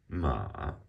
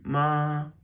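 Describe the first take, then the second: First: The pitch dips low, then rises. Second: The pitch stays high and level.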